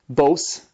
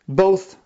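First: The word ends with an S sound. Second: The word ends with a TH sound. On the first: The speaker calls it wrong. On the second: The speaker calls it right.

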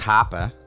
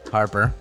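First: The r sounds are dropped, Boston style. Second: The r sounds are pronounced in a general accent.

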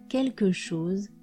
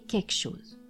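First: 'Quelque' is pronounced with all its sounds. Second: 'Quelque' is shortened, with sounds dropped. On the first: "je peux ne pas dire quelque chose" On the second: "mais quelque chose"

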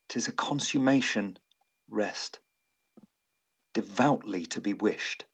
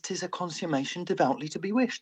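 First: There is a pause after consummation. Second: It is said without a pause after consummation.

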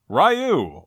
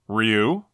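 First: The name is said the familiar anglicized way. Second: The name is said the original Japanese way.

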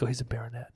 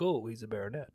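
First: It is said in a dismissive, negative tone. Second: It is said in an admiring, positive tone. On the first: Being a baronet is looked down on. "it's almost like they say it in a negative" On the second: Being a baronet is attractive. "but the women are like"

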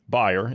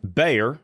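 First: The name is pronounced the German way. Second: The name is pronounced the English way.

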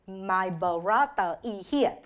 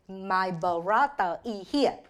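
First: It is said with a Vietnamese accent. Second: It is said with a Vietnamese accent.

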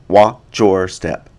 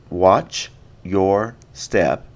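First: The end of watch blends into your. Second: Each word is said separately and distinctly.

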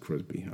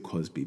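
First: The name has an r sound after the first consonant. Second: The name has no r sound after the first consonant. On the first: The speaker calls it wrong. "I keep saying Crosby, but it's not actually Crosby" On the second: The speaker calls it right. "but it's Bill Cosby"

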